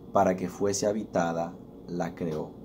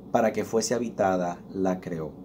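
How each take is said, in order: No difference in how they are said.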